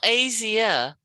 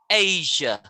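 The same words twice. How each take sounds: First: The word has three syllables, ending in ia. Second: The word has two syllables, ending in ja. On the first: The speaker calls it wrong. "not three syllables" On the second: The speaker calls it right. "two syllables"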